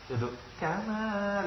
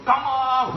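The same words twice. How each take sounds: First: Kama diseret pelan dan lunak, kurang tegas; kama datar. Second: Kama dihentak tinggi dan keras sambil tertawa; kama tegas. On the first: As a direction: ucapkan kama pelan tanpa tekanan. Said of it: "nggak boleh ke bawah, harus naik". (kama dibaca lemah, contoh yang kurang tepat) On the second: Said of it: "mesti tegas itu ... harus naik". (kama tegas dan naik, diiringi tawa) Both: Shown as a demonstration.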